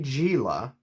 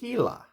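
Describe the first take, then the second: First: The word begins with a hard G sound. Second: The word begins with an H sound. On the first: The speaker calls it wrong. "It starts with a G, but you don't say Gila" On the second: The speaker calls it right. "You say Gila. ... you pronounce the G's like, like an H"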